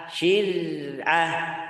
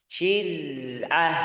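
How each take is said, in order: The two takes are said the same way.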